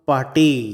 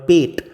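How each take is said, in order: First: It is said as two syllables, like 'pah-tay'. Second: It is said as one syllable, like 'pet'. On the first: The speaker calls it right. "এর উচ্চারণ হবে লিভার পাটেই" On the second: The speaker calls it wrong. "এর ইংরেজি বানানটা দেখলে মনে হবে লিভার পেট"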